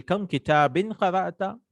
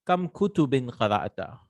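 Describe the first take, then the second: First: Kam kitabin qara'ta? asked with a high rise on qara'ta; example question. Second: Said in the usual way. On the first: Shown as a demonstration. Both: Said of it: "For example".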